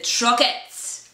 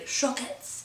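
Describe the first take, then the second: First: The word is said with a plain English accent. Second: The word is said with a put-on French accent. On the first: "if that's how you say it" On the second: "we'll say that like French people"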